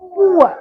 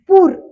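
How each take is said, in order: First: It is two syllables, oo then uh. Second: It is one syllable with a long oo. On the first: This is how the word is actually pronounced. The speaker calls it right. "पण पूर होतो का? नाही. तर आवाज कसा होतो? पुअर" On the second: This is how the spelling rule predicts it. The speaker calls it wrong. "Actually आवाज कसा व्हायला पाहिजे होता? पूर"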